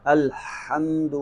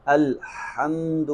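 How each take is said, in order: First: الحمد drawn out with a clear breathy ħ; slow recitation. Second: الحمد said slowly with the throat h dropped, like alamd; wrong take. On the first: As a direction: recite الحمد slowly, voicing the throat h. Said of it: "قرآن پاک میں سے کیسے استعمال کریں گے". (الحمد آہستہ، حلقی حا کے ساتھ) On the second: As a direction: drop the ħ in الحمد to show the mistake. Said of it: "اگر ہا کی بجائے آپ نے ہا پڑھ دیا". (الحمد غلط، حا کے بغیر) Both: Shown as a demonstration.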